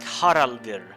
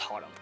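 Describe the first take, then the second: First: The name ends with a soft extra R sound. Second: The name ends plainly without an extra R sound. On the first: "With a soft Old Norse R in the end" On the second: "I'm still just going to pronounce it as Harald"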